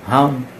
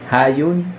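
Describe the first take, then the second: First: The name is pronounced as Han. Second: The name is pronounced as Hayun. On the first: The speaker calls it right. "Han pala yung pronunciation nito" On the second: The speaker calls it wrong. "Kala ko Hayun"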